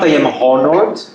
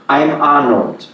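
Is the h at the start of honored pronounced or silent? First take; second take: pronounced; silent. First: Honored begins with an audible h sound. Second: Honored begins with a vowel, no h sound. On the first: The speaker calls it wrong. "It's not I am honored" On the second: The speaker calls it right. "it's I am I am honored"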